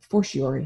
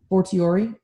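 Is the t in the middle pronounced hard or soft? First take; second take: soft; hard. First: The t is pronounced softly, not as hard t. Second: The t is pronounced as a hard t. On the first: "I think I've been pronouncing it with a" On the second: "Hard T"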